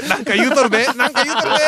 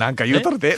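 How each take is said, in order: First: Louder teasing repeat. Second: Said in the usual way. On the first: Real, not acted. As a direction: call it out to tease him.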